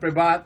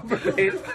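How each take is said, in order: First: The last syllable sounds like 'vat'. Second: The last syllable sounds like 'vet'. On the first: The speaker calls it wrong. "Not privat" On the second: The speaker calls it right. "you know, privet"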